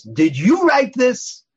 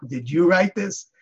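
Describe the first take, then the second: First: Loud, high and very slow, menacing; stern accusing demand. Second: A touch higher, slow, gently asking; milder question. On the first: Rabbi confronts his assistant over the article, loud stern accusation. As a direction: drop it like a verdict on a frightened assistant. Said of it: "the tone of voice scared the wits". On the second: Rabbi's question retold without the scary tone, mild and curious. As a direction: ask it as a curious question, not a threat. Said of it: "But not in that tone of voice". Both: Retold or imitated.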